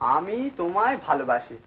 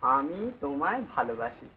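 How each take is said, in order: First: It is said in a plain, matter-of-fact tone. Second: It is said in a soft, sweet tone. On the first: The speaker calls it wrong. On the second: The speaker calls it right.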